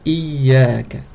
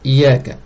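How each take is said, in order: First: The y sound is held long and doubled. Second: The y sound is short and single. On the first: The speaker calls it right. "C'est Iyaka" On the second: The speaker calls it wrong. "sans doubler le ya"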